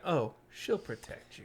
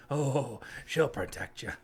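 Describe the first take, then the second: First: Slow, sinister version of the line; creepy mock quote. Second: Slow, sinister mock read; menacing reading. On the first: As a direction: say it like a veiled threat. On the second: Shown as a demonstration. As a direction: read it as a veiled threat. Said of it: "let's read it that way".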